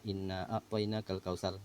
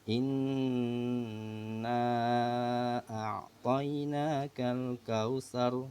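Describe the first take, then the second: First: The nasal n sound is cut short. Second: The nasal n sound is held long.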